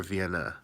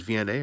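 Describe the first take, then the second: First: "Vienna" as vee-EN-uh; ending in "uh". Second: "V N A" as vee-en-AY; ending in "ay". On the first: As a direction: end "Vienna" on a short "uh". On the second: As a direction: end "V N A" on a long "ay". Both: Shown as a demonstration. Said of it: "Is it V N A or Vienna?".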